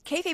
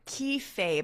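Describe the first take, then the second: First: The first syllable sounds like 'kay'. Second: The first syllable sounds like 'key'. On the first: The speaker calls it right. "but it's K A Y" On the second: The speaker calls it wrong. "I was saying it wrong. I was saying key"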